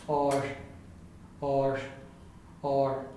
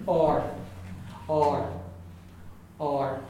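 No difference in how they are said.

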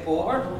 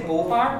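First: The unstressed vowel is a neutral vowel. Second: The unstressed vowel is a full vowel. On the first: The speaker calls it right. "It's neutral, isn't it" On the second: The speaker calls it wrong. "we don't say bohr"

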